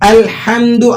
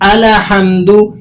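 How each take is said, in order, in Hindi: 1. L, H के साथ बिना किसी हरकत के जुड़ता है। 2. L पर छोटी हरकत होती है, जो H से पहले आती है। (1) "आपने लाम को हिलाना नहीं" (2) "लाम को हिलाकर पढ़ते हैं बाज लोग"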